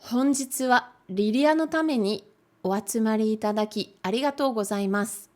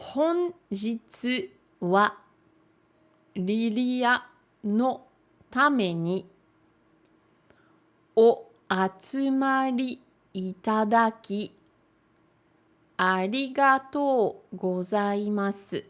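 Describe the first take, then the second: First: The sentence is read at a faster pace. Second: The sentence is read at a slower pace.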